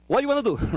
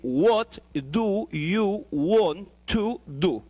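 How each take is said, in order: First: The small words are weakened and run together. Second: Each word is said fully and separately. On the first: The speaker calls it right. "But we don't pronounce like that" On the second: The speaker calls it wrong. "if we read separately, we say"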